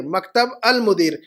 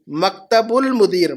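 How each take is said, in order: First: "مکتب المدیر" split as maktab, al-mudir; separated pronunciation. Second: "مکتب المدیر" linked as maktabul-mudir, slowly; joined pronunciation. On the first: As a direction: sound "al" in "المدیر" as its own start, after "مکتب". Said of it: "المدیر کے ساتھ الف لام ہے". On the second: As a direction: draw out "مکتب المدیر", running it together with a u sound. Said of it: "مکتب کے بعد ساتھ میں الف لام نہیں ہے". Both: Shown as a demonstration.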